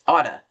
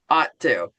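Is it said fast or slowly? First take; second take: fast; slowly. First: It is said fast, run together. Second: It is said slowly, words kept apart.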